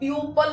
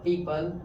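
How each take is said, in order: First: The first vowel is said as 'pyoo'. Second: The first vowel is said as 'pee'. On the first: The speaker calls it wrong. "प्यूपल नहीं पढ़ के" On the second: The speaker calls it right. "Right pronunciation"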